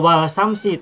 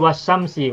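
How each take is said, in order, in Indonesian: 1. L diucapkan dengan jelas sebelum s. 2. L menyatu menjadi bunyi sh yang ganda. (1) "Tidak wal samsi" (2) "Tidak wal samsi tapi was"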